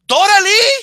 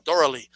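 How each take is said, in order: First: Loud, high dramatic call; mock telenovela cry, pitch shooting up. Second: Said in the usual way. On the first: Friend interrupts the heroine from behind, calling out high and loud. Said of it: "you hear some bitch's voice in the background".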